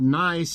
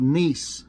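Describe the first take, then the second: First: The vowel sounds like the one in 'eye'. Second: The vowel sounds like the one in 'see'. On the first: The speaker calls it wrong. "it's not called Nice" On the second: The speaker calls it right. "it's called Nice"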